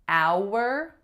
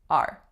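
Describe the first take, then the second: First: The vowel is full, longer and more complex. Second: The vowel is reduced, shorter and less complex. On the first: "instead of our" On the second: "we're just saying R"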